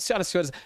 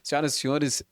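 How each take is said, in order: First: It is said with more varied, lively intonation. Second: It is said with plain, even intonation. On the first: It breaks the formal protocol a little. "eu coloco mais entonação" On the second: It follows the formal protocol. "o correto se fosse para eu apresentar aqui um evento público"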